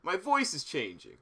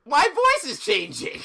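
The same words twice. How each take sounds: First: Said in the usual way. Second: Slow, loud and higher; loud exclaim. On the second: Shown as a demonstration. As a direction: belt it out in alarm.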